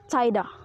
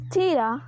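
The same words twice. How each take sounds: First: The vowel is a gliding diphthong. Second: The vowel is a long high 'ee' sound. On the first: This is the pronunciation after the vowel shift. "that's unsure plus a kind of diphthong" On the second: This is the older Middle English pronunciation. "E comes to be pronounced as an A"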